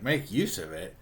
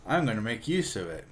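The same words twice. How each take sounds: First: "make use of it" echoed as a question, lifted at the end. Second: Plain statement on "make use of it", falling at the end; stated plan. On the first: Archie repeats Betty's words back to her, questioning. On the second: Betty tells Archie her hot-weather plan, stated firmly. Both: Retold or imitated.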